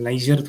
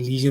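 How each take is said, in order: First: The first vowel sounds like 'eye'. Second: The first vowel sounds like 'ee'. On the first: The speaker calls it wrong. "लाइजर थोड़ी होता है" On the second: The speaker calls it right. "लीजर होता है"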